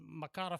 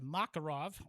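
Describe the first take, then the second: First: The stress is on the second syllable. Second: The stress is on the first syllable. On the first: The speaker calls it right. "instead of the second" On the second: The speaker calls it wrong. "incorrectly placing emphasis on the first syllable"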